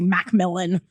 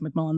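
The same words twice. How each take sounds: First: The name has a gap between its parts. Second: The name is said smoothly with no break. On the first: "with a space in between" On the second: "easier to say like Macmillan"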